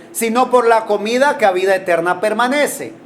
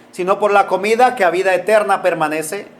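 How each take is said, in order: The two takes are said the same way.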